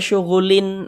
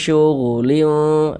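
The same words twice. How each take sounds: First: The final n is pronounced clearly and distinctly. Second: The final n is blurred into a nasal hum. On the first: The speaker calls it wrong. "Jangan dibaca syughulin, lin, lin jelas itu jangan" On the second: The speaker calls it right. "Disamarkan. Uh, fi syughulin liu seperti itu"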